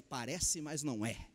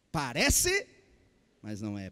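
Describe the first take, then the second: First: Soft, low ad slogan quote; quoting an old ad. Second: Parece called out loud, mas não é dropped low; punchy slogan. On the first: Preacher recalling an old TV advert slogan, softly. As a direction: murmur the old advert line. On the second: Preacher hammering the ad slogan to the congregation, loud then low. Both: Retold or imitated. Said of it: "tinha uma propaganda, dizia".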